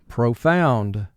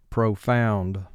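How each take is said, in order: No difference in how they are said.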